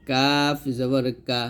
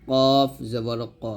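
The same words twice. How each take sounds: First: Light, front k in "কাফ জবর কা"; thin kaf. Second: Heavy, back-of-tongue q in "কফ জবর ক"; thick qaf. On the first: Teacher showing students the thin letter, lightly pronounced "কাফ জবর কা". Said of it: "কাফটা পাতলা হবে". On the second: Teacher showing students the thick letter, heavily pronounced "কফ জবর ক". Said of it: "কফটা মোটা হবে". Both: Shown as a demonstration.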